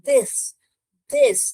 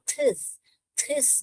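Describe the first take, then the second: First: The first consonant is voiced, tongue between teeth. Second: The first consonant is a voiceless aspirated stop. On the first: The speaker calls it right. "ऐसे जीभ रख के बोलिए तो correct pronunciation आएगा" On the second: The speaker calls it wrong. "थिस थिस करके आएगा, जो कि गलत है"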